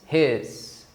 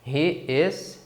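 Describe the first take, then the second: First: It is said as one contracted syllable. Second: It is said as two full separate words.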